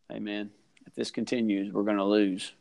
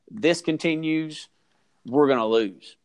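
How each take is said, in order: First: It is said in a calm, normal way. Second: It is said in an angry, urgent way.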